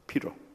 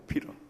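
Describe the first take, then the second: First: The middle consonant sounds like a flapped r. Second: The same.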